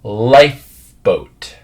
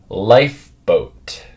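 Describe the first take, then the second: First: Slow, careful "Lifeboat" to copy; slow model word. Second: "Lifeboat" drawn out slowly, f made with lip on teeth; careful slow repeat of "Lifeboat"; slow model word. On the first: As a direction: stretch "Lifeboat" out slowly, pressing lip to teeth for the f. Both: Shown as a demonstration. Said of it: "the next one".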